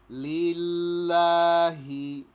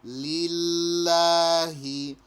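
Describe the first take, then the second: The two takes are said the same way.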